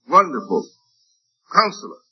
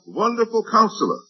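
First: There is a pause after Wonderful. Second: There is no pause after Wonderful. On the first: Wonderful and Counselor are separate titles. The speaker calls it wrong. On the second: Wonderful describes the Counselor. The speaker calls it right.

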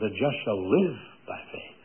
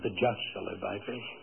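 First: The stress is on the word live. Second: The stress is on the word just.

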